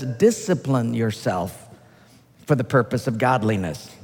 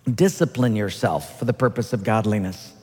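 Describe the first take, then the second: First: Slow scripture reading. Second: Said in the usual way. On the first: Shown as a demonstration. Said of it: "reading scripture".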